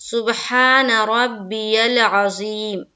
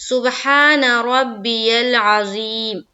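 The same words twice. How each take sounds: The two takes are said the same way.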